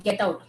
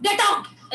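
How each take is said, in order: First: Said in the usual way. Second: Sharp angry shout, pitched high and loud. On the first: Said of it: "तो अगर गुस्से में बोलना है". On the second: Shown as a demonstration. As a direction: throw them out in a rage. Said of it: "अब मुझे गुस्सा दिखाना है वॉइस में".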